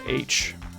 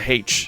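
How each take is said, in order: First: The word begins with a vowel sound. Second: The word begins with an h sound. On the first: "It's just H. There's no H in the letter H" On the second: "I don't call it H"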